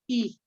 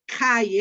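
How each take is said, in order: First: It is said like a plain Spanish i. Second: It is said like the English word high. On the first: The speaker calls it right. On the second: The speaker calls it wrong.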